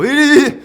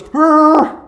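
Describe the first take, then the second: First: A loud, high, unsure "Eh" blurted out; hesitant eh. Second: A high, loud, noncommittal "Eh" in a mimicked voice; mock unsure eh. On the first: Retold or imitated. Kneeling before his girlfriend, he blurts out an unsure high eh. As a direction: stall for words instead of the speech. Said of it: "I go". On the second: Girlfriend answering the proposal, mimicked as a high noncommittal eh. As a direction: tease him with a shrug of a sound. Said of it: "she looks at me and she goes".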